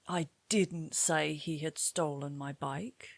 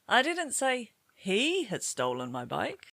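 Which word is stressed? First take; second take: didn't; he. First: The word "didn't" carries the main stress. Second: The word "he" carries the main stress. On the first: Someone claimed it was said, but it was not. "somebody claimed you said this, but in fact, you didn't" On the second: Somebody else had stolen it. "Perhaps somebody else had stolen it"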